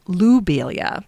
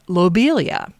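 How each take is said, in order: First: The first syllable sounds like 'loo'. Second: The first syllable sounds like 'low'. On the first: This follows the French pronunciation of the namesake's name. "knowing the French pronunciation of his name, I will say it lobelia" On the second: This is the usual English way of saying it. "I pronounced lobelia as lobelia"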